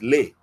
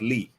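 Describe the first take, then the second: First: The vowel sounds like 'ay'. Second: The vowel sounds like 'ee'. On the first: The speaker calls it right. "it's Lay" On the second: The speaker calls it wrong. "L E is not Lee"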